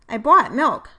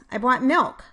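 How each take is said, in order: First: The main stress falls on another word. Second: The main stress falls on the word milk. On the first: The speaker calls it wrong. "primary sentence stress placed inappropriately in the second sentence" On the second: The speaker calls it right. "it is the word that is different in each pair of sentences or phrases that is highlighted by primary sentence stress"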